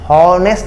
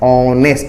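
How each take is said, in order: First: The word begins with an h sound. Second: The word begins directly with a vowel. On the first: The speaker calls it wrong. "एच मतलब हॉनेस्ट नहीं" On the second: The speaker calls it right. "ऑनेस्ट इसका हम लोग पढ़ते हैं"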